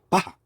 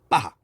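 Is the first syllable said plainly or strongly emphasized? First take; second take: plainly; emphasized. First: Both syllables are said evenly without emphasis. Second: The first syllable is said strongly and forcefully. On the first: The speaker calls it wrong. "바하라고 안 하고" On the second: The speaker calls it right. "바를 강조를 합니다. 세게 읽으면 돼"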